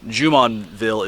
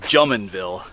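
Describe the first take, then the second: First: The name is pronounced the French way. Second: The name is pronounced the English, local way. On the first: This is the original French form of the name. "Jumonville is the French way of saying it" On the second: This is how the locals say the name. "a viewer said uh, they call it Jumonville"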